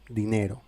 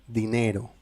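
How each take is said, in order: No difference in how they are said.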